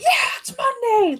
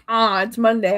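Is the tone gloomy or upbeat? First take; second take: upbeat; gloomy. First: It is said in an upbeat, cheerful tone. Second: It is said in a gloomy, dreading tone.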